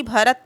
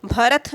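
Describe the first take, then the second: First: भरत ending in unaspirated t; correct form. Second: भरत ending in aspirated th; wrong form. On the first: Teacher correcting the ending for students, correct form. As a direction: finish भरत on a plain t, no puff. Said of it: "ता है, था नहीं". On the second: Teacher showing students the wrong ending, wrong form. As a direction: breathe out on the last consonant of भरत, bharath. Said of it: "भरत नहीं बल्कि". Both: Shown as a demonstration.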